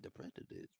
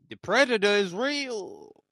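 First: Hushed secret whisper. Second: Loud, slow dramatic declaration; loud announcement. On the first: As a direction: breathe it like a secret. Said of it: "whispered repeat". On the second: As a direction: proclaim it big and slow. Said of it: "loud announcement take". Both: Real, not acted.

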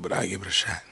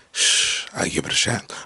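First: Said in the usual way. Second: Hushed, voiceless aside; playful whisper. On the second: Acted. Man confiding a celebrity crush, playful whisper. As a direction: whisper it like a cheeky confession.

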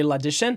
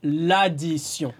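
First: "l'addition" said like English "addition" with a sh sound; English-like pronunciation. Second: "L'addition" slowly as la-dee-syon, nasal ending; French pronunciation. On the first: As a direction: say "l'addition" with an English -shun ending. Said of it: "so similar to English". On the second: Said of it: "Try to say". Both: Shown as a demonstration.

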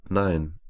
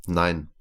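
First: Said in the usual way. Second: A firm, final no. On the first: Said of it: "Rema hört auf zu essen und antwortet". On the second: A narrator's reading. Rema refuses Zital's offer of the watch, firm. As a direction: shut the offer down. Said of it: "antwortet Rema bestimmt".

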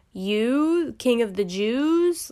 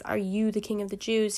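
First: Scornful stress on "You", the rest drawn out slowly. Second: Said in the usual way. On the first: Shown as a demonstration. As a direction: lean hard on "You" as in yeah, right. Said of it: "you" in an emphatic position". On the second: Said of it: "in an emphatic position".

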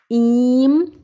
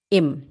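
First: "Im" as ihm, a long drawn-out ee, rising. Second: "im" with a short, open i close to "em". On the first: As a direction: stretch "Im" into a long ee. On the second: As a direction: clip "im" very short. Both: Shown as a demonstration. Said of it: "Agora o im e o em".

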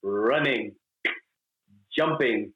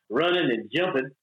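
First: "running", "jumping" each slowly set apart with full endings; voice-lesson diction. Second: Casual Southern "running and jumping"; Southern accent. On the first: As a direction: enunciate "running" and "jumping" as separate, careful words. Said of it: "I had voice lessons". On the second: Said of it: "they got rid of my accent". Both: Shown as a demonstration.

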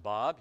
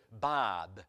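First: Said in the usual way. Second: Low, imitated Massachusetts accent. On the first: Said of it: "I said". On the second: Local man gives the preacher his name, Massachusetts accent. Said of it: "they do have a different accent".

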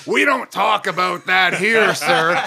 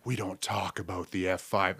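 First: Loud, slow mock Southern yell; yelled Southern rebuke. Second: Low, quiet movie-style warning; hushed dread, mock-grave. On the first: Host imitating crowd shutting down his vaccine joke, yelling. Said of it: "they yelled at me". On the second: Comic imitating Twister diners at the dreaded question, hushed. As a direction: drop it low and soft, as if taboo. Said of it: "everyone drops their utensils like".

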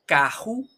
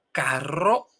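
First: "caju" with a breathy throat sound in the middle; "caju" with the r turned into h; Portuguese h-like R. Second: "carro" with a trilled double r; "carro" said with a tongue-tip trill; Spanish rolled R. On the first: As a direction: say "caju" with a guttural h, no trill. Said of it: "te toma la palabra". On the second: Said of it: "ves la palabra". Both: Shown as a demonstration.

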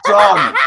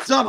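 First: A sudden loud, eager yell of agreement; shouted done. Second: Said in the usual way. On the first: Real, not acted. A guest offers a wrestling day, he shouts yes. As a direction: bark it out, instantly sold.

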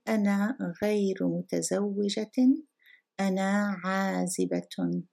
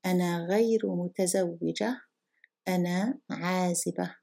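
First: متزوجة and عازبة with full -tun style case endings; final declension pronounced. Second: متزوجة and عازبة ending in a plain a; endings dropped before pause. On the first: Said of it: "the final declension before a pause". (every ending of متزوجة and عازبة fully voiced) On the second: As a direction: leave off the t and case ending of عازبة. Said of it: "Let me read it again properly". (pausal reading, متزوجة and عازبة without declension) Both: Shown as a demonstration.

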